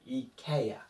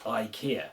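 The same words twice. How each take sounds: First: It begins with ee, the middle like eh. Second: It begins with eye, the middle like ee. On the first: The speaker calls it right. "I should be said like ski. So it should be eek. And this E should be the same as in elephant" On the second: The speaker calls it wrong. "instead of"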